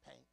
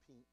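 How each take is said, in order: First: The vowel is a Southern-style 'ank' sound. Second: The vowel is a standard short 'i' sound. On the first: The speaker calls it wrong. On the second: The speaker calls it right. "not pink"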